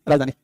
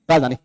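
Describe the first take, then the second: No difference in how they are said.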